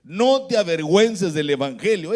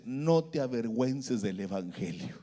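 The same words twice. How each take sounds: First: Firm, raised-voice repeat of a divine command; strong, insistent pulpit delivery; emphatic preaching. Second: Low, soft, solemn divine voice; quiet, low-pitched message from above; Espíritu Santo. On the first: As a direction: proclaim it to the congregation. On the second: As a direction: drop low and hushed, as if heard inwardly. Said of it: "el Espíritu Santo le habla y me dice". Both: Retold or imitated.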